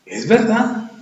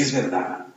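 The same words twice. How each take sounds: First: Es verdad lifted higher; raised, firmer agreement; higher repeat. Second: Es verdad said much softer and lower; hushed, humbled agreement; quiet admission. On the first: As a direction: repeat it with a lift. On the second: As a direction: concede it under your breath. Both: Shown as a demonstration.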